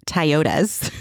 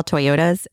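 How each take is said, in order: First: "Toyotas" as tie-OH-tuhz; dad's pronunciation of Toyotas. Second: Said in the usual way. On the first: Retold or imitated. Daughter quotes her dad, "Toyotas" as tie-OH-tuhz. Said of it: "My dad used to call". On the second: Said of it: "used to call Toyotas".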